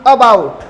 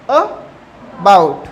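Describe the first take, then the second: First: Said in the usual way. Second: अबाउट broken in two, a short "uh", a pause, then "bout"; split into syllables. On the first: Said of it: "इसे हमें क्या पढ़ना है". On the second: Shown as a demonstration. Teacher showing the symbol at the front, अबाउट split as "uh... bout". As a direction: say अबाउट very slowly as two separate parts, "uh... bout". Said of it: "ये आगे ना".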